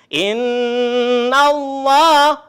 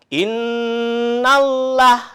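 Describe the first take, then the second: First: The L in Allah is said thick and heavy. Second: The L in Allah is said thin and light. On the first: The speaker calls it right. "tapi innallah, nallah, harus tebal ya" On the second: The speaker calls it wrong. "Tidak dibaca innallah"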